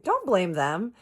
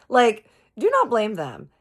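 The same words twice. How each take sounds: First: High, loud "Don't blame them"; retold indignant objection. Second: "do not" hit high and very loud; emphatic retold scolding. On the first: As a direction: cut him off in acted indignation. Retold quarrel, first take. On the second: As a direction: repeat it harder, punching "do not". Retold quarrel, emphatic repeat.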